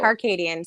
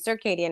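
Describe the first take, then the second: First: The first syllable sounds like 'car'. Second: The first syllable sounds like 'sir'.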